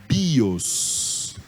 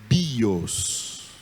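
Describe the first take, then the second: No difference in how they are said.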